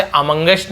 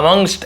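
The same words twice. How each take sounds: First: "amongst" misread with an extra vowel before the st; wrong pronunciation. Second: "amongst" in two syllables, ending straight in ngst; correct pronunciation. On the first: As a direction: say "amongst" wrongly as a-mung-gest, in three syllables. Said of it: "amongst नहीं पढ़ेंगे हम". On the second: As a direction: say "amongst" as a-mungst, no vowel before the st. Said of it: "ऐसे पढ़ते हैं". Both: Shown as a demonstration.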